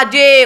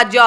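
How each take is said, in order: First: जे as the English letter name; stretched "jay" for जे. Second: ज with an open neutral vowel; bare consonant sound ज; letter's phonetic sound. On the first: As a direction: say जे as "jay", with a long vowel. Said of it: "sound हुआ जे". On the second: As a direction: say ज as "juh", not "jay". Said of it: "उच्चारण हुआ ज". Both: Shown as a demonstration.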